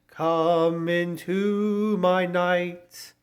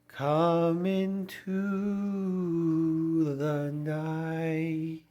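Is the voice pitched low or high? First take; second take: high; low. First: The voice is pitched higher. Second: The voice is pitched low.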